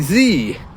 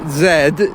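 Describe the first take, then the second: First: The letter is said the American way. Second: The letter is said the British way. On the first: "in American English, of course, they don't say the letter Z, they say Z" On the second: "they don't say the letter Z"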